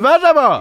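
It is said firmly, as an exclamation.

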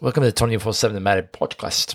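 It is said in a put-on Scottish accent.

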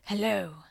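The voice sounds deep, distorted and sinister. The speaker calls it right. "She's talking in a demonic voice"

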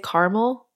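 Caramel is said the American way.

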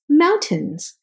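The middle t sound is clearly pronounced. This is how it is said outside Utah. "When you're not in Utah, it's pronounced mountains"

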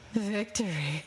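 It is said in an exhausted, exasperated tone.

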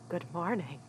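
It is said in a breathy, creepy Hannibal voice.

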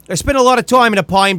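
It is said in a put-on New Jersey accent.

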